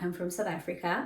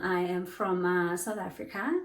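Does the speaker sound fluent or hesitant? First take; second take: fluent; hesitant. First: It is said smoothly and clearly, without fillers. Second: It is said hesitantly, with a filler and pause. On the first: The speaker sounds confident. The speaker calls it right. "speaking as audible and clear as possible" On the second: The speaker seems unsure of what they are saying. The speaker calls it wrong. "when you use a lot of ums and ah"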